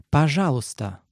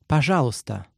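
First: Пожалуйста said slowly and clearly, every sound full; slow model repetition. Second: Said in the usual way. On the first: Shown as a demonstration. Teacher repeating the word slowly for students. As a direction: repeat Пожалуйста carefully for learners. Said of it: "Let's break it down by syllable". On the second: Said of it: "please is".

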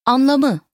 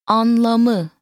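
First: Said in the usual way. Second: Anlamı drawn out syllable by syllable; slow teaching model. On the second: Shown as a demonstration. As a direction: stretch Anlamı evenly for a learner to copy. Teacher models word slowly, then normally.

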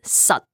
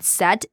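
First: "sat" short with an uh vowel; brief "sat", like sut, cut off; Cantonese pronunciation. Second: Said in the usual way. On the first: Shown as a demonstration. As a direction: clip "sat" with an unreleased t. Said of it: "not pronounced as set, but sat". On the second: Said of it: "is not pronounced as set".

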